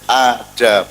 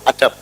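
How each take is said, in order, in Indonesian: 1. Vokal dipanjangkan. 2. Semua vokal dibaca pendek. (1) "dalnya mat, mat itu dawa" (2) "itu ora dawa"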